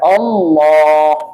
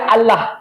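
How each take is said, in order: First: The L is said heavy and thick. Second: The L is said light and thin. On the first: The speaker calls it right. "ditebalkan. ... lamnya ditebal" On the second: The speaker calls it wrong. "Maka tidak boleh baca Allah"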